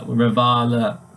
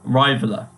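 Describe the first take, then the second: First: The i vowel is not said the English way. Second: The i vowel is said the English way. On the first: The speaker calls it right. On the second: The speaker calls it wrong.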